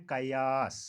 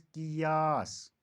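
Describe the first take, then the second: First: कयास said qa-yaas; कयास as qayaas; common mispronunciation. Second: कियास said qi-yaas, drawn out; कियास as qiyaas; correct pronunciation. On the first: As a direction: say कयास with a first. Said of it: "कुछ लोग बोलते हैं". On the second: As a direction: say कियास slowly with i first. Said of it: "सही तलफ़ुज़". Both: Shown as a demonstration.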